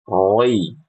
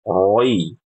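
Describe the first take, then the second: Both takes have the same delivery.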